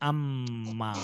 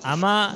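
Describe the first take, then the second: First: The m is held long and firmly. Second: The m is a single short sound. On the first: The speaker calls it right. "बल्कि अम्मा" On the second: The speaker calls it wrong. "अमा नहीं पढ़ना है"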